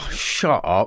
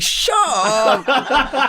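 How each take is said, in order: First: Mock disbelief, close to usual pitch; incredulous. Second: Very high, loud mock disbelief; incredulous squeal. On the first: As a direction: brush off an unbelievable offer, drawn on "shut". Disbelief at being offered Bond. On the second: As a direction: squeal it as if the offer is absurd. Bigger disbelief at being offered Superman.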